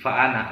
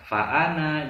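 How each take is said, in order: First: The final vowel of ana is kept short. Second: The final vowel of ana is drawn out long. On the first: The speaker calls it right. "Jadi langsung naknya tidak dibaca panjang" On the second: The speaker calls it wrong. "Jangan fa'ana, jangan seperti itu"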